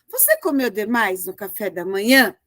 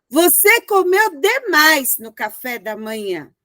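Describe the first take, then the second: First: It is asked as a question. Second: It is exclaimed with an indignant tone.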